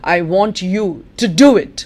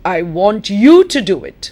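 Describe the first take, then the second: First: The stress falls on the word do. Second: The stress falls on the word you. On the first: Action is wanted, not just listening or talking. "not just to listen about it, not just to talk about it" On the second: This person, and nobody else, should do it. "That means not your friend, not your brother"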